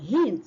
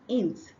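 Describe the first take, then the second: First: The word begins with a clear h sound. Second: The word begins without any h sound. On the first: The speaker calls it right. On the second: The speaker calls it wrong.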